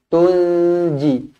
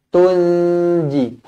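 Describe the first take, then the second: Both takes have the same delivery.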